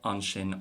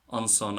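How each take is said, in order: First: The second syllable starts with a sh sound. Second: The second syllable starts with a sharp s sound. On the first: The speaker uses a non-Munster dialect. "the son and the so is the same as just shin and sho" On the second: The speaker uses a Munster dialect. "in Munster, most speakers will pronounce it with a sharp S"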